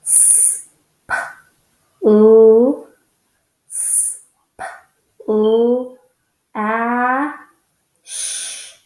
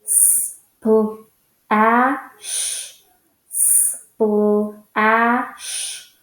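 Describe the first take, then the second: First: "s, p, l, a, sh" each sound said apart; sounding out letters. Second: "S, p, l, a, sh" sounds run quicker; faster sounding out. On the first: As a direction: break splash into separate sounds. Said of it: "So this says". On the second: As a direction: speed the sounds up toward the word. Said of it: "say it a little bit faster". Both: Shown as a demonstration.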